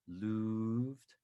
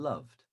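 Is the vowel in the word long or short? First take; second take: long; short. First: The vowel is long, like in 'move'. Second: The vowel is short, like in 'love'. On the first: "with a long vowel sound" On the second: "or a shorter vowel sound"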